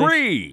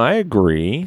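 First: It is said with more enthusiasm. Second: It is said flatly, without enthusiasm.

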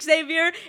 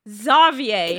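First: The name is pronounced the English way. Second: The name is pronounced the French way. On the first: The speaker calls it wrong. "it wasn't pronounced Xavier" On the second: The speaker calls it right. "It was pronounced Xavier. ... You have to say it with a French accent"

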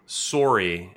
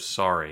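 First: It is said with a Canadian pronunciation. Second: It is said with a non-Canadian pronunciation. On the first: It marks the speaker as Canadian. "And sorry instead of sorry" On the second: It is the usual non-Canadian form. "instead of"

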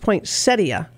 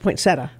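First: The word is said with all its syllables. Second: The word is said shortened, dropping a syllable. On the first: This is the proper form of the word. "It's poinsettia" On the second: This is how most people say it. "everyone always says poinsettia"

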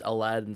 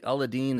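First: The name is said with anglicized sounds. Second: The name is said with Arabic-like sounds. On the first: This is how an English speaker would say it. The speaker calls it wrong. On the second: This is the proper pronunciation. The speaker calls it right. "That's how you'd correctly say it"

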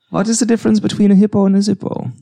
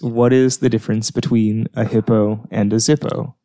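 First: It is spoken in a put-on German accent. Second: It is spoken in the speaker's ordinary accent.

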